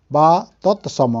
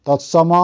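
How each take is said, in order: First: ତତ୍ସମ said slowly, syllable by syllable; slow careful repeat. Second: Said in the usual way. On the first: Shown as a demonstration. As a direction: spell out ତତ୍ସମ slowly for the class.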